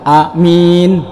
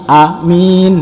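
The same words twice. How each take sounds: No difference in how they are said.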